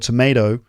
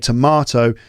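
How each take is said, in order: First: It is said with an American pronunciation. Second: It is said with a British pronunciation. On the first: "in the States, they tend to say" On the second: "in the U K, we say tomato"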